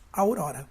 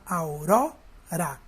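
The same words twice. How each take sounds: First: Said in the usual way. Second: "aurora" slowly split, "ro" louder and drawn out; stress on "ró". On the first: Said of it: "Qual é a última palavra". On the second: Shown as a demonstration. Teacher finding the strongest syllable, "aurora" split with stressed "ro". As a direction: pull "aurora" apart and lean on the middle "ro". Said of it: "A sílaba mais forte é o ró".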